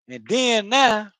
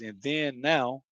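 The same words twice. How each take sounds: First: High, slow Florida drawl on "then now"; Florida accent. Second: Said in the usual way. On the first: Shown as a demonstration. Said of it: "that's how we talk in Florida". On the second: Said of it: "you know, that means".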